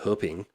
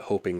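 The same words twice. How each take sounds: First: It is said with Mandarin sounds, like huh-ping. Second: It sounds like the English word hoping. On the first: This is how the name is actually said in Chinese. The speaker calls it right. "but it's Hoping" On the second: This is how people who do not speak Chinese say it. The speaker calls it wrong. "foreigners that live there that don't speak Chinese, some of them will call it Hoping Road"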